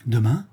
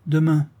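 First: Mildly delighted rising "Demain?"; lightly glad surprise at the news; a touch of joy in the question; joyful question. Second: Curt, cool "Demain" said flatly as a statement; coldly repeating the word back; understated chilly answer; cold reply. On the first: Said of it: "reprit la vicomtesse avec joie". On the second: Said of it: "dit froidement Cécile". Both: Acted.

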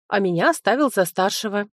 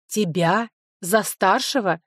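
First: Said in the usual way. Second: За старшего slowed, stress on за, falling; slow, doubting echo of За старшего; incredulous question. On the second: Acted. Sofi mocks Linoy's claim of being in charge, incredulous.

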